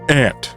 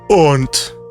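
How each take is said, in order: First: It is said with an American vowel. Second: It is said with a British vowel.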